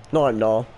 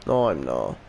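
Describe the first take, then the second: First: Said in the usual way. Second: Much lower, flat denial; low mutter. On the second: Real, not acted. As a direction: drop the voice right down.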